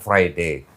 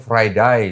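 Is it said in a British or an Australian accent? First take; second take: British; Australian. First: It is said with a British English accent. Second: It is said with an Australian English accent.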